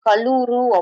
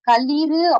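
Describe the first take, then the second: First: The second vowel is 'u'. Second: The second vowel is 'i'. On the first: "இல்லு கூட்டல் ஊவா மாறி" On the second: "இல்லு கூட்டல் ஈ"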